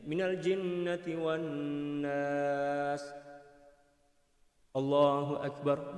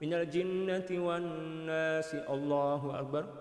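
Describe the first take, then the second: First: There is a short pause before the final phrase. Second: The phrases run straight together without any pause. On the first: The imam gives the congregation a moment before bowing. The speaker calls it right. "Dia kena berhenti, senyap sekejap, diam sekejap ... macam itu" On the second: The imam goes straight into bowing without a break. The speaker calls it wrong. "Jangan terus sambung ... hukumnya makruh"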